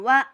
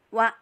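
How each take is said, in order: First: The sound flows on without a clean stop. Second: The sound is cut off with an abrupt stop. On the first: The speaker calls it wrong. "jangan wa, e, jangan dipantul, jangan jangan dialirkan" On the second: The speaker calls it right. "wa, begitu ya"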